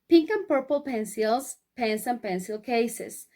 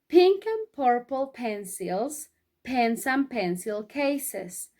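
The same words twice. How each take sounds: First: It is said at a fairly quick pace. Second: It is said at a slow, careful pace. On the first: "vamos a decirlo más rápido" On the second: "decirlo todo junto de corrido, despacito"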